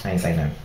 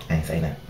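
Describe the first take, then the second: No difference in how they are said.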